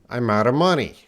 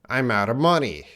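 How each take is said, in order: No difference in how they are said.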